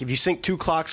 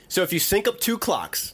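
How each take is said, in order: First: It is said at normal, quick speed. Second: It is said slowly and deliberately.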